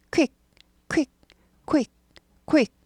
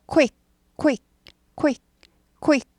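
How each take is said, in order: No difference in how they are said.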